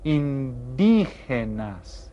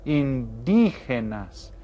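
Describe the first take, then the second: First: "indígenas" slow with the stress on dí. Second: Slow "indígenas", dí clearly stressed. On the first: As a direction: lean on the dí of "indígenas". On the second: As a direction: model "indígenas" again, hitting dí. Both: Shown as a demonstration. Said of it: "we stress this syllable".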